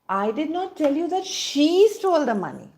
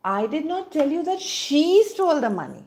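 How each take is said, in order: First: The word she is stressed. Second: The same.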